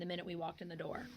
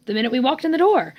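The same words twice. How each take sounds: First: Said in the usual way. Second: "The minute we walked in the door" higher and louder; emphatic repetition. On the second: Real, not acted. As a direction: drive home "The minute we walked in the door", pitch climbing. Repeats phrase emphatically.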